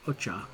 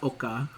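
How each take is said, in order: First: The middle consonant is a 'ch' sound. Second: The middle consonant is a 'k' sound. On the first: The speaker calls it right. "I think is actually the way you say it" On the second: The speaker calls it wrong. "not Oka. I don't know why I was saying Oka"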